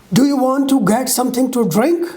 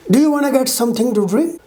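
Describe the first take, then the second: First: "want to" kept as two words; unreduced pronunciation. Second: Fast, linked "wanna"; reduced form. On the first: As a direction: say "want to" fully, not wanna. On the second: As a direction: run "Do you wanna" together quickly. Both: Shown as a demonstration. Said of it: "Comparing unreduced and reduced pronunciation".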